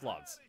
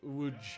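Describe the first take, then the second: First: It begins with an L sound, read as spelled. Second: It begins with a W sound, ending in zh. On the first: The speaker calls it wrong. "It's not pronounced Lodz" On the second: The speaker calls it right. "It's pronounced more like Wuj"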